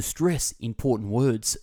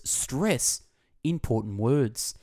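First: Said in the usual way. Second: "Stress", a beat, then "important words" drawn out slowly; emphatic repeat. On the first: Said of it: "to interject emphasis into your speech". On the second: Shown as a demonstration. Narrator demonstrating emphasis to listeners, "Stress" and "important words" set apart slowly. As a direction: repeat it deliberately, pausing after "Stress" and slowing on "important words". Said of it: "is to stress important words".

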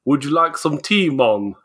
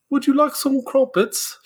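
First: Badly faked Jamaican accent, barely there. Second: High-pitched, badly faked English accent; mock English mother in a high voice; awful English accent. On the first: English mother suddenly offering tea, botched Jamaican accent. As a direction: attempt a Jamaican lilt and mostly miss. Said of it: "they have a Jamaican accent all of a sudden". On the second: Mother in England offering crumpets, badly faked English accent. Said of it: "your white European mother ... in England".

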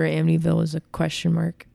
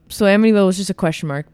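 First: Voice glitch. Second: Said in the usual way. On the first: Real, not acted. Podcaster's voice acts up while recapping the movie, voice glitch. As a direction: voice briefly catching, real. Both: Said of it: "Don't know what was happening to my voice there".

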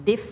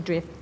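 First: Clean "Diff", D straight into the vowel; no R after D. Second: "drift" with an intrusive R, as drif; mistaken R after D. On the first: Teacher correcting the student's drift, clean "Diff". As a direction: say "Diff" without any R. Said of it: "ไม่ใช่ drift Diff". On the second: Teacher mimicking the student's mistake, "drift" with intrusive R. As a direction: put an R into "diff", giving "drift". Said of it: "ไม่ ไม่ใช่ drift". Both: Shown as a demonstration.

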